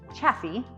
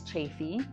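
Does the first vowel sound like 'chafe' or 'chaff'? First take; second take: chaff; chafe. First: The first vowel sounds like the one in chaff. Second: The first vowel sounds like the one in chafe. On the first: The speaker calls it wrong. "You definitely hear people say it chaffy" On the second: The speaker calls it right. "but it is chafy"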